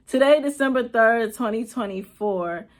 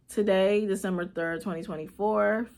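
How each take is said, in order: First: Louder, steadier retake of Today; firm restart. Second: Said in the usual way. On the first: Real, not acted. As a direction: push through Today, December third, firmly. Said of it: "retake after laugh". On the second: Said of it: "restarts after breaking down".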